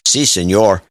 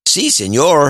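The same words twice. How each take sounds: First: It is said in a natural Mexican accent. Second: It is said in an exaggerated Mexican accent.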